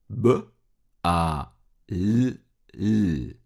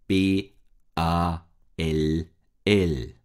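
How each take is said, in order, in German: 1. Jeder Buchstabe wird als reiner Laut gesprochen. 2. Jeder Buchstabe wird mit seinem Alphabetnamen gesprochen. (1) "Jetzt lautiere ich" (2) "Ich buchstabiere das Wort"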